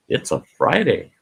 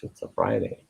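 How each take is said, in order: First: Said in the usual way. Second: "it's a Friday" whispered much lower and softer. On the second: Shown as a demonstration. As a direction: breathe "Friday" as a secret.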